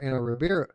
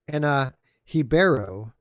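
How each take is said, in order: First: The surname begins with an English R sound. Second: The surname begins with a breathy H sound. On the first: The speaker calls it wrong. "We've been saying it wrong" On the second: The speaker calls it right.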